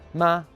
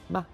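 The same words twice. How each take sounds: First: The pitch stays high and level. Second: The syllable is short, light and unstressed.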